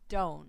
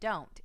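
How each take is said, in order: First: The final T sound is dropped. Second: The final T sound is pronounced. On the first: The speaker calls it wrong. "It's not don't" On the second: The speaker calls it right. "Make sure you have that T in don't"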